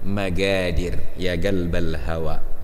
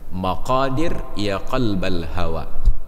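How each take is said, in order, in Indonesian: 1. Bunyi qaf diucapkan sebagai g keras. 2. Bunyi qaf diucapkan sebagai q dalam.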